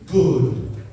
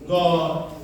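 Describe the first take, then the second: First: The vowel is an 'oo' sound. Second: The vowel is an 'o' sound. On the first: The speaker calls it right. "kalau G double O D, good" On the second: The speaker calls it wrong. "Jadi dia tidak"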